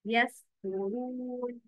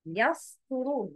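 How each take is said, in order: First: يسترون with a light sin and a heavy ta; correct pronunciation. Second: يسترون with the sin made heavy like sad; wrong pronunciation. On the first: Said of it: "The correct is". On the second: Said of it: "but the wrong is". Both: Shown as a demonstration.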